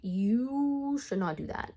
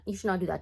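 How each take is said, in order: First: Slow warning with a lengthened "you"; drawn-out scolding. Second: Said in the usual way. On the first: Retold or imitated. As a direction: stretch "you" long and slow. Retold scolding, drawn-out first take.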